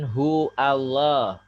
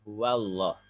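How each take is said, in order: First: The 'w' sound after 'hu' is dropped. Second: A clear 'w' sound follows 'hu'. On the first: The speaker calls it wrong. "Bukan hu Allah" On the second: The speaker calls it right. "Itu wau"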